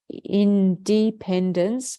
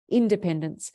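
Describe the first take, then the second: First: There is a pause after "in". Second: The word is said without a pause.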